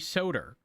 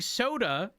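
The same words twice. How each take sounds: First: The word ends with an added R sound. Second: The word ends in a plain vowel sound. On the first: "Where did that R come from?" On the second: "something that ends in an A"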